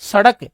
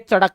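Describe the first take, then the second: First: The word begins with an s sound. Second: The word begins with a ch sound. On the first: "जैसे आप कहोगे ना सड़क" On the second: "तो वो कहेंगे चड़क"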